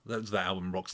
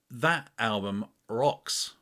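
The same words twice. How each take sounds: First: Said in the usual way. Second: Slow, weighty "That album rocks"; savouring the praise; drawn-out emphasis. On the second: Shown as a demonstration. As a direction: lean on "rocks" slowly. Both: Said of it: "See, I'd cut that out normally".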